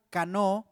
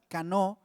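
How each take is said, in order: First: Cano, stressed on the o, hard c as in casa; Hebrew word. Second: Cano again, hard c, stress on the o, gently rising; Hebrew word repeated. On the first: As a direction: say cano with a clear hard k and weight on the o. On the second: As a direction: repeat cano slowly for the congregation. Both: Shown as a demonstration. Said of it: "con acento en la O y con C de casa".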